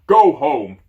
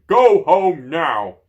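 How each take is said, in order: First: Booming giant roar, louder; giant shouting. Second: Slow, drawn-out booming roar, higher and louder; giant roaring slowly. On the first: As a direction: bellow it like an angry giant. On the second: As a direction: stretch each word into a huge command. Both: Acted. Giant yelling at dragon.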